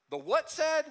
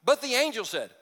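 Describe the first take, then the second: First: High prompting question, waiting for the crowd; high teasing prompt for the congregation; prompting call-and-response. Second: Said in the usual way. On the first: Shown as a demonstration. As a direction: pitch The what said? up high, coaxing the congregation to answer. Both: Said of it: "let's do it again".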